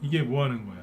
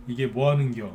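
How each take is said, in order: First: Said in the usual way. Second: Light Chungcheong dialect, ending 겨 instead of 거야; a Chungcheong local grumbling, unhurried. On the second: Shown as a demonstration. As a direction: say 겨 in an easygoing Chungcheong lilt. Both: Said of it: "충청도 사투리는 이제 거야라고 안 끝나죠".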